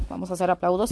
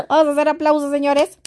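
First: Said in the usual way. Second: Laughing. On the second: Real, not acted. Vlogger calls for applause while laughing at herself, giggly. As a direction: call for applause through laughter, higher and louder.

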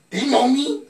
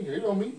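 First: He know me, higher and louder; high loud repeat. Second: Said in the usual way. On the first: Acted. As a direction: belt it out higher.

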